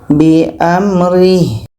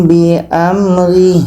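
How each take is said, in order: Both takes have the same delivery.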